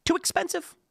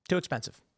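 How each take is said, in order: First: "too expensive" jumping very high in mock surprise; echoing "too expensive" high, then repeating it flat. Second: Flat repeat. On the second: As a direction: drop "Too expensive" down quietly. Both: Shown as a demonstration.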